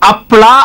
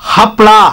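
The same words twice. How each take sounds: First: The word begins with a bare vowel. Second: The word begins with an h sound. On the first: The speaker calls it wrong. "ಅದು ಹಪ್ಳ ಅಲ್ಲ ಕಣೆ ... ಆ ಅಲ್ಲ" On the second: The speaker calls it right. "ಹ ಹ ಅನ್ಬೇಕು"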